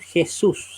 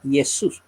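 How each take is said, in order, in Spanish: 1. La primera consonante es un sonido gutural fuerte. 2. La primera consonante es suave, no gutural. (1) "los latinoamericanos pronunciamos la J como una gutural" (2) "sino se pronuncia Jesús"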